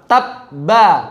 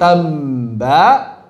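First: The b is stopped cleanly without any flow. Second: The b sound flows on instead of stopping. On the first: The speaker calls it right. "Jangan dialirkan" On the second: The speaker calls it wrong. "Jangan dialirkan menjadi tamba"

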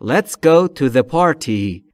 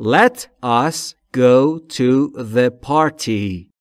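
First: Let and us merge into one syllable. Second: Let and us are said as two words. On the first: "به صورت مخفف میشه let's go" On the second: "Let us go"

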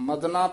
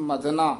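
No difference in how they are said.

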